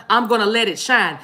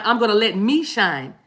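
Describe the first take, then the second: First: Said in the usual way. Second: "me" leaned on in place of the usual word; stress on ME. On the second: Real, not acted. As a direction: land firmly on "me". Changes the word to me.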